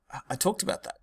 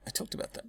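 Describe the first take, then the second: First: Said in the usual way. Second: Unvoiced, much softer repeat of "I talked about that"; whisper. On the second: Real, not acted. Teacher muttering an aside to himself in a whisper.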